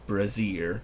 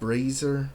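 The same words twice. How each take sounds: First: The first syllable sounds like 'bra'. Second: The first syllable sounds like 'bray'. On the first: This is how it was said in childhood. "when I was a kid, I always called the word brazier. I didn't know what a real bra was" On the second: This is the accepted pronunciation. "I'm pretty sure the word is pronounced brazier"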